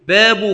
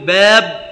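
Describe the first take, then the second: First: The word ends with a short 'u'. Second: The word ends with no vowel. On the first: It is the predicate of an omitted subject. "وتركه" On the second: It only counts the chapters, without grammatical case. "والتسكين على الوقف بلا إعراب"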